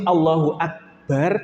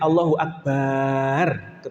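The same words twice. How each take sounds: First: The vowels are kept at normal short length. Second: A vowel is drawn out and held long. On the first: The speaker calls it right. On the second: The speaker calls it wrong.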